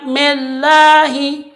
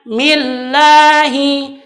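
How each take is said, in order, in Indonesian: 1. Vokal pertama diucapkan tanpa merentangkan bibir. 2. Vokal pertama diucapkan dengan bibir direntangkan. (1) "dengan tiada menarik menarik mulutnya" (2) "Maka bacaannya millahi"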